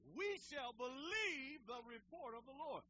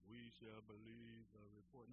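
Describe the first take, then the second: First: It is said enthusiastically, with lots of energy. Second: It is said flatly, with little energy.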